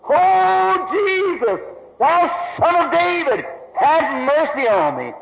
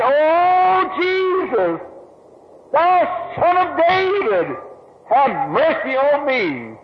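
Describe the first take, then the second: First: High pleading cry at normal pace; crying out again. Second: High pleading cry, drawn out slowly. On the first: Blind beggar calling again to Jesus over the crowd, high pleading cry. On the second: Blind beggar crying out to Jesus on the road, high pleading cry. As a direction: call desperately to someone passing far off. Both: Acted. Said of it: "raised to his feet and cried".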